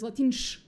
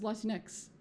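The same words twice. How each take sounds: First: The final x is read as in Spanish. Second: The final x is read as in English.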